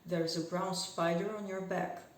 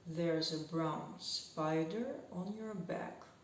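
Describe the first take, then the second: First: The sentence is spoken fast throughout. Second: The sentence is spoken at a moderate pace.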